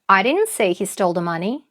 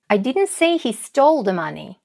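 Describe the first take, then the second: First: The word "I" is stressed. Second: The word "stole" is stressed. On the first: Someone else said it. "Это значит не я, это кто-то другой сказал" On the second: He took the money rather than stealing it. "Может, он не украл, а взял деньги"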